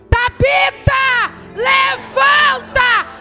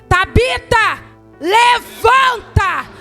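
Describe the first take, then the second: First: It is said loudly, with commanding authority. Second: The same.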